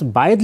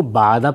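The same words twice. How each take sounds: First: باعد said "ba'id", i before the d; written reading. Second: بعدہ said "ba'ada", a vowels throughout; possible misreading. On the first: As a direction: end باعد in "-id". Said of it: "جو لفظ باعد لکھا ہوا تھا". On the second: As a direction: end بعدہ in an open "-ada". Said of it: "پڑھنا بھی ممکن تھا". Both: Shown as a demonstration.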